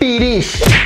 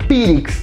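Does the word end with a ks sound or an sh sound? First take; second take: sh; ks. First: The word ends with an sh sound. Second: The word ends with a ks sound. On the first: The speaker calls it right. "en yucateco se debe decir pirish" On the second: The speaker calls it wrong. "he escuchado tratar de decir pirix"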